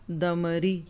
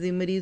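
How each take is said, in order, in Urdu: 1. نام کی ابتدا d کی آواز سے ہوتی ہے۔ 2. نام کی ابتدا z کی آواز سے ہوتی ہے۔ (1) "تو کیا ہے؟" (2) "اب اس کو کئی طرح سے میں پڑھ لوں"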